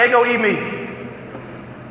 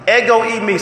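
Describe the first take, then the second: First: "Ego eimi" drawn out slowly and softer, eh-go ay-mee; slow group repeat. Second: "Ego eimi" said crisply as eh-go ay-mee; Greek ego eimi. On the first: Pastor and congregation repeating the Greek together, slow. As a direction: lead the room in a slow unison "Ego eimi". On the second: Pastor teaching the Greek words, clear model. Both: Shown as a demonstration. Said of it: "Say it with me, guys".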